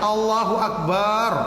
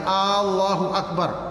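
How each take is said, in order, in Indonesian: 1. Vokal di suku kata bar dipanjangkan. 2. Vokal A di awal dipanjangkan. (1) "Atau dipanjangkan baknya" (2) "misalnya A-nya terlalu panjang"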